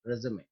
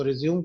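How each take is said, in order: First: रिज्यूमे with a clear final e after the m; teacher models रिज्यूमे, three syllables ending in e; रिज्यूमे said carefully as the right form; correct pronunciation. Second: रिज्यूम said short, ending on the m with no final vowel; clipped रिज्यूम, like the English word resume; रिज्यूम as the mistaken form students use; wrong pronunciation. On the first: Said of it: "सही जो pronunciation होता है". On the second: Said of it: "वो गलत उच्चारण है". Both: Shown as a demonstration.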